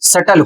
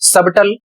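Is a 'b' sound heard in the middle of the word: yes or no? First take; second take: no; yes. First: The b in the middle is silent. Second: The b in the middle is pronounced. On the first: The speaker calls it right. "सही उच्चारण सटल होता है" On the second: The speaker calls it wrong. "सबटल नहीं होता है"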